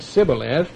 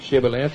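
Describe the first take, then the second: First: The word begins with an 's' sound. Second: The word begins with a 'sh' sound. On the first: The speaker calls it wrong. "he said Sibboleth. He could not frame to pronounce it right" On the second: The speaker calls it right. "if he couldn't say Shibboleth"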